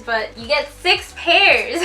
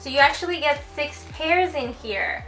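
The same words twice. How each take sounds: First: "six pairs" slow and louder, each word leaned on; stress on six pairs. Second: Said in the usual way. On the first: Shown as a demonstration. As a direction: punch "six pairs" slowly for emphasis. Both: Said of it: "Normally brands give you two pairs".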